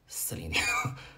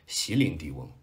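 First: The name begins with an 'si' sound. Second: The name begins with an 'xi' sound. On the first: The speaker calls it right. "[name]，正确发音啊" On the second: The speaker calls it wrong. "很多人念席琳迪翁，那就是以前的我"

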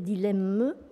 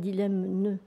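First: The word ends in an m sound only. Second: The word ends with an added n sound. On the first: The speaker calls it right. "il faut dire dilemme" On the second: The speaker calls it wrong. "et pas dilemne"

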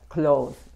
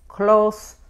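First: The final consonant is a buzzing Z sound. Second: The final consonant is a hissing S sound. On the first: It means to shut something. "esta S se pronuncia como la Z" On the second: It means near. "cuando quiere decir cerca, close se pronuncia como la S"

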